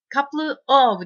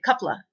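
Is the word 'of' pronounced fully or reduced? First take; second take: full; reduced. First: Couple and of are said as separate full words. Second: The words blend into one, ending in a weak vowel. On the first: The speaker calls it wrong. "カプルof ではなくて" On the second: The speaker calls it right. "カプラとなります"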